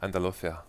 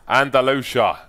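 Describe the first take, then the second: First: It is said with a Spanish accent. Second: It is said with an English accent. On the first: "listen to a Spanish girl say Andalusia. It's the most beautiful thing" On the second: "in England, we have these expats... we're like"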